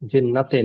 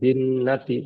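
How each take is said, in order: First: The word ends with an 'e' vowel. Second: The word ends with an 'ee' vowel. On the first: The speaker calls it wrong. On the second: The speaker calls it right.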